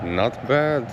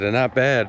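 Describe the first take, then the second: First: It is said in a Russian-like accent. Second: It is said in the speaker's plain accent.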